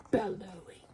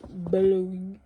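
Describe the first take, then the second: First: Said in the usual way. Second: Bellowing. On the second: Shown as a demonstration. Teacher shows children how the word sounds, bellowing it. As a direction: boom the word like the sound it names. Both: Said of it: "Sounds like you should say it like that".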